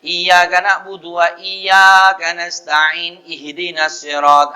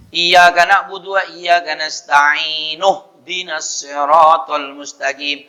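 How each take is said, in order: First: Slow chant running "nasta'in" straight into "Ihdinas" with the nu sound dropped; "nasta'in-ihdinas" joined without sounding "nu"; faulty verse joining. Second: Linked recitation, "nasta'inu-hdinas" as one flow; verses joined. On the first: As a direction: demonstrate a bad link from "nasta'in" to "Ihdinas". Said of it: "Nunnya hilang ini". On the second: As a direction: run "nasta'in" into "Ihdinas" as "nasta'inuhdinas". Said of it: "Jadi kalau disambung". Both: Shown as a demonstration.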